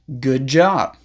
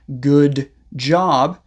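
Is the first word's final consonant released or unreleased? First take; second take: unreleased; released. First: The final consonant is held without air. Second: The final consonant is released with air. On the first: "don't release the air" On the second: "Instead of saying"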